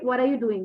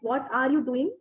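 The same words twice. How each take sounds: First: The words are run together in a reduced form. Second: Each word is said separately with its own emphasis.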